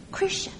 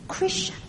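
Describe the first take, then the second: No difference in how they are said.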